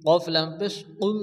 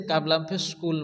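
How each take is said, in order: First: কুল with a deep back-of-throat q; correct deep qaf. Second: কুল with a plain front k; wrong light kaf. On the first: Teacher showing learners the correct letter, deep throaty q in কুল. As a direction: spell out কফ লাম পেশ কুল with heavy qaf. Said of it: "কাব লাম পেশ কুল উচ্চারণ করা যাবে না". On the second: Teacher imitating learners' common mistake, plain k in কুল. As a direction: spell out কাব লাম পেশ কুল with light k. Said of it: "অনেকে আছে ... বলে". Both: Shown as a demonstration.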